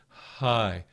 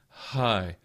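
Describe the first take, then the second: The two takes are said the same way.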